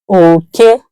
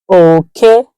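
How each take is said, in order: First: It carries the tone pattern meaning rat. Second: The same.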